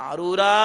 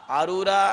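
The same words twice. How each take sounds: No difference in how they are said.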